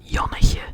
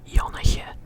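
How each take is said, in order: Both takes have the same delivery.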